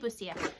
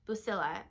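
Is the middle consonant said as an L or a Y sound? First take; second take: Y sound; L sound. First: The middle consonant sounds like a Y. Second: The middle consonant sounds like an L. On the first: The speaker calls it wrong. "I say Busia because it has two L's" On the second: The speaker calls it right. "but it's Busilla. I think that's how you say it"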